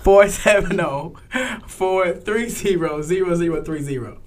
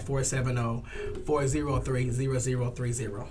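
First: Slow, louder, digit by digit; deliberate, spaced-out phone number; slowed down for clarity. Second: Quick, softer phone number; phone number reeled off without pausing; said really fast. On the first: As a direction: spell the number out slowly and firmly. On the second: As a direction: rattle the number off in passing. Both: Real, not acted. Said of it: "you said that really fast".

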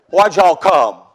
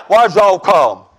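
First: Mock Southern deacon, lower; folksy Southern twang on the question; Southern drawl. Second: Slow, gruff Southern deacon; rough Southern drawl. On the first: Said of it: "I don't speak Southern". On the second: Retold or imitated. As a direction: drag it out in a Southern accent. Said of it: "he's kinda rough with me".

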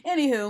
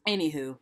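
First: Loud, high brush-off; loud anywho. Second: Whispered anywho. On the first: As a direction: toss it off loudly. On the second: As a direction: breathe it as a whisper. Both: Pretend. Brushing off the name joke.

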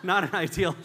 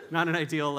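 First: "not" punched loud with a laugh; stress on not. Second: Said in the usual way. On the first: Shown as a demonstration. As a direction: hit "not" hard, laughing.

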